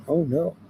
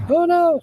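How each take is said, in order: First: Said in the usual way. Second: High-pitched playful wail; mock alarm. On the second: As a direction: wail it way up high in pretend dismay. Mock alarm at a message request.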